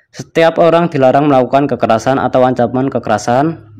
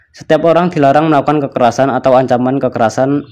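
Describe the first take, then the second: Both takes have the same delivery.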